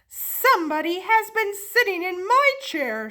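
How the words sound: It is said in a medium voice.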